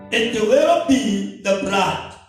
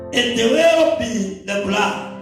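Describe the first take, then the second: Both takes have the same delivery.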